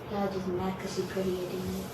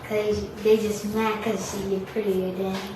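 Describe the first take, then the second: First: It is said at normal, softer volume. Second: It is said louder, with more volume.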